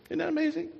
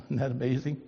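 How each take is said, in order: First: High, wide-eyed wonder; a high marvelling question. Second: A laughing little question; amused aside. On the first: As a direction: lift the whole line up in awe. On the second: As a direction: chuckle then ask it lightly. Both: Real, not acted.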